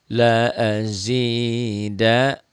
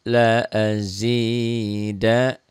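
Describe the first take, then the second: No difference in how they are said.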